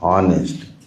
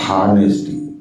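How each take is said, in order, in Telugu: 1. ఈ పదం అచ్చుతో మొదలవుతుంది, h లేదు. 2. ఈ పదం h శబ్దంతో మొదలవుతుంది. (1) "ఆనెస్టీ not హానెస్టీ" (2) "not హానెస్టీ"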